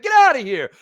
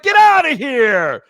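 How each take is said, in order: First: "Get outta here" tossed off at normal speed; quick throwaway Seinfeld line; Seinfeld bit, quick. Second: Slow, drawn-out Seinfeld-style "Get outta here"; Seinfeld bit. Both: Retold or imitated. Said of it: "it's just Seinfeld bit".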